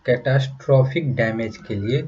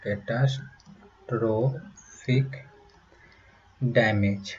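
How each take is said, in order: First: Said in the usual way. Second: Catastrophic stretched very slowly, syllable by syllable; slow drawn out. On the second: Shown as a demonstration. Teacher spelling out a hard word slowly. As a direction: draw out catastrophic for the class.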